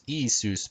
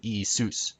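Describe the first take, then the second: First: IISUS with the stress moved forward to EE; wrong stress. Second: IISUS with stress on final SOOS; correct final stress. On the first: Presenter showing viewers what to avoid, wrong stress. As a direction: hit the start of Iisus, EE-ee-soos. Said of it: "Not Iisus, but Iisus". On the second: Presenter correcting the accent for viewers, final stress. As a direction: land on the end of Iisus, ee-ee-SOOS. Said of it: "with the accent on Zeus". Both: Shown as a demonstration.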